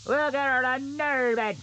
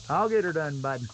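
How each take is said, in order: First: Higher, put-on buddy voice, cheering himself on; sing-song encouragement in a silly higher voice; goofy pep-talk voice. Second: Said in the usual way. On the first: Logger cheering himself on at the steep hillside, goofy higher voice.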